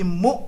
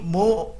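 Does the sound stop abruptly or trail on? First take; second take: abrupt; trails on. First: The sound stops abruptly and cleanly. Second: The sound trails on instead of stopping. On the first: The speaker calls it right. "Hamzah sukun langsung habis" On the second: The speaker calls it wrong. "jangan mu"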